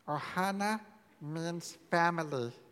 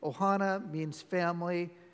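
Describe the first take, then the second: First: It is said in a put-on character voice. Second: It is said in an ordinary natural voice.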